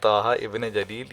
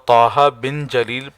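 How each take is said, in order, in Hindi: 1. बीच वाला शब्द 'ibn' पढ़ा जाता है। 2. बीच वाला शब्द 'bin' पढ़ा जाता है। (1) "ये गलत है" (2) "पढ़ना ये सही है"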